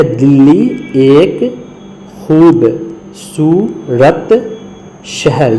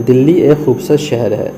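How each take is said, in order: First: Very slow, word by word, stretching خوبصورت; slow reading. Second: Said in the usual way. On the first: Shown as a demonstration. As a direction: spell it out slowly for the class. (بہت آہستہ، لفظ بہ لفظ) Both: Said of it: "یہاں ہے کا استعمال دیکھیے".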